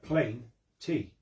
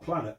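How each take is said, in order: First: It is split into two separate parts. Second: It is run together as one word. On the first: The speaker calls it right. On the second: The speaker calls it wrong. "Not planet"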